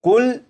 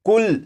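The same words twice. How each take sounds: The two takes are said the same way.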